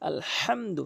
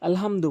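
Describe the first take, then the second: First: The h is pressed tightly from the throat. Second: The h is a plain, light breath. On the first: The speaker calls it right. "হাটি হরফের মাঝখানে চাপ দিয়ে বলতে হবে" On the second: The speaker calls it wrong. "অধিকাংশ লোক সূরা ফাতিহার ওখানে আলহামদু বলে থাকে"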